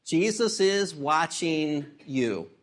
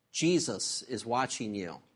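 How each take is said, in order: First: Slow, weighty, every word landed; preacher turns the joke line into a solemn point; slow emphatic repeat. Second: Low and hushed, a spooky voice from the dark; a low, quiet warning from somewhere in the dark; hidden parrot voice. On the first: Shown as a demonstration. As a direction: let the line sink in slowly. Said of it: "preacher repeats the punchline". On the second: Acted. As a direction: drop the voice low like an unseen watcher. Unseen voice in dark house.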